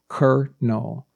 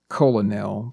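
First: The word sounds exactly like kernel. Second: The word does not sound like kernel. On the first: The speaker calls it right. "it's pronounced colonel" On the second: The speaker calls it wrong. "a lot of people will pronounce it colonel"

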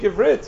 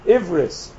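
First: The word ends with a t sound. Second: The word ends with an s sound. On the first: "not to speak Ivrit"

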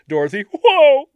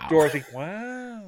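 First: The surname has a rounded 'oh' vowel. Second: The surname has an open 'ah' vowel. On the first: "Or you ask Joey Lawrence" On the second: "We'll ask Owen Wilson how to pronounce it"

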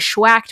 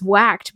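First: The word begins with a 'shw' sound. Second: The word begins with a plain 'w' sound. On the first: The speaker calls it wrong. "people keep saying schwacked" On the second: The speaker calls it right. "it's actually just whacked"

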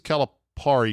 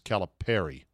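First: The ending rhymes with calamari. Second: The ending sounds like Perry. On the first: The speaker calls it wrong. "that rhymes with the fried squid calamari" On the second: The speaker calls it right. "I think it's Perry"

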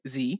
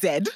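First: The letter is said as American zee. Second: The letter is said as British zed.

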